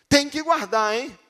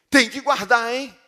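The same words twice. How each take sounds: Both takes have the same delivery.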